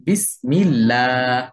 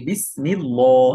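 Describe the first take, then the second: First: Slow "বিসমিল্লাহ" with a light, thin "llaa"; thin lam. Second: "বিসমিল্লাহ" with a dark, rounded "llaw"; wrong heavy lam. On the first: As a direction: stretch "বিসমিল্লাহ", keeping the final "laa" light. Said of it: "পাতলা করে পড়বো". ("বিসমিল্লাহ"-এর লাম পাতলা করে, টেনে) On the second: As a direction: say "বিসমিল্লাহ" wrongly, ending on a full, heavy "law". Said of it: "এরকম মোটা করে বলি". ("বিসমিল্লাহ"-এর লাম ভুলভাবে মোটা করে) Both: Shown as a demonstration.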